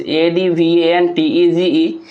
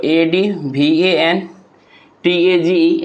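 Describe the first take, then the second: First: Said in the usual way. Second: "ए डी वी ए एन टी ए जी ई" in chunks, long pause after एन; broken into syllables. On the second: Shown as a demonstration. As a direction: spell "ए डी वी ए एन टी ए जी ई" syllable by syllable, pausing after एन. ("ए डी वी ए एन टी ए जी ई" को एन के बाद रुककर टुकड़ों में) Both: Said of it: "advantage को अगर हम तोड़ें".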